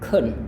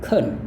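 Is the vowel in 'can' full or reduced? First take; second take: reduced; reduced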